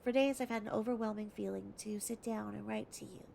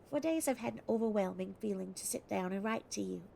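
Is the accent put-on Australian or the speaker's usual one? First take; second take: usual; Australian. First: It is read in the speaker's normal accent. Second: It is read in a put-on Australian accent.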